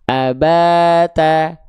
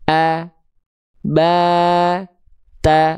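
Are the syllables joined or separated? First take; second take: joined; separated. First: The syllables are joined without pauses. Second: The syllables are said separately with pauses. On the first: "baru sambung" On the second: "Boleh diputus-putus"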